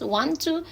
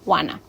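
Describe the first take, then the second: First: Both words are said fully and separately. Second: The words are blended into one short word. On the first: This is the standard form. "La manera correcta es want to" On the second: This is the informal form. "la manera informal es wanna"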